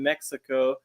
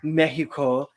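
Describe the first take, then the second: First: Said in the speaker's own usual pronunciation. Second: Said imitating the other person's pronunciation.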